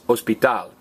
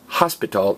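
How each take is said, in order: First: The stress is on the last syllable. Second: The stress is on the first syllable. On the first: The speaker calls it right. "the very last vowel gets stressed" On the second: The speaker calls it wrong. "it's not pronounced hospital"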